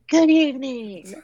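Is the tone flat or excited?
excited. It is said with lively excitement.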